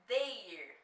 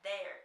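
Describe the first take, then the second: First: The vowel is closed, like in 'they'. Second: The vowel is open, like an acute accent. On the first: The speaker calls it wrong. "Não é fechado como o they" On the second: The speaker calls it right. "Ele é aberto"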